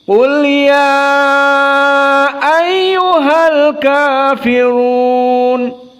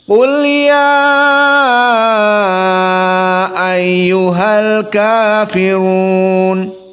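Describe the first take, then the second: First: The stretched vowel is held a medium length. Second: The stretched vowel is held a long time. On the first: "Sekarang qiraah yang tawassut" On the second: "qiraah al-isba"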